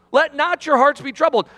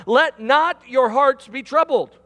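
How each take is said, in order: First: "your" leaned on, the line a bit louder; louder repeat, stressing "your". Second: Said in the usual way. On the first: Shown as a demonstration. Preacher repeating the verse to the congregation, stressing "your". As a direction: say it again and hit "your". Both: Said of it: "Listen to what he says here".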